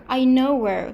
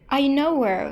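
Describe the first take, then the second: The two takes are said the same way.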